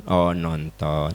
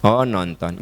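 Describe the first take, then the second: First: Low, soft, slow sulky oh, nonton; sulky disappointment. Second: Oh, nonton said evenly and accepting; calm acceptance. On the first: A mother hears her child went to the movies, sulking. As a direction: let it drop, hurt and sulking. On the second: A mother accepts her child's honest answer, calmly. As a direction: take the news calmly, without sulking. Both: Acted. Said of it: "Ibu teh jangan ngambek".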